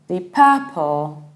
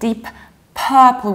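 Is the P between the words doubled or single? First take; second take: single; doubled. First: The words are linked with a single P. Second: The words are separated and P is doubled. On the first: The speaker calls it right. "There is only one P" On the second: The speaker calls it wrong. "We don't pronounce it separately and we don't pronounce P twice"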